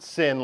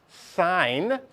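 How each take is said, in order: First: "sin" with a short i, rhyming with "pin"; pronounced like sinful "sin". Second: "sine" with a long i, rhyming with "line"; pronounced like "sign". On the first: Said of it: "Not, not sin like sin". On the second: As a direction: say "sine" drawn out, exactly like "sign". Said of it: "this is pronounced sine". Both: Shown as a demonstration.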